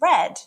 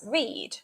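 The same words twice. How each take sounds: First: It is said with the past-tense vowel. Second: It is said with the present-tense vowel. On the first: The action already happened. "as read in the past tense" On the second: The action happens now or habitually. "it can be pronounced as read in the present tense"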